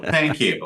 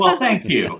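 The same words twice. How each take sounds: First: Said in the usual way. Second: High, laughing thanks. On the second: Real, not acted. Laughing thanks after compliment.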